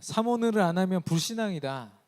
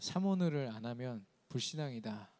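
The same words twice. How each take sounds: First: It is said more strongly and forcefully. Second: It is said in a normal, moderate voice.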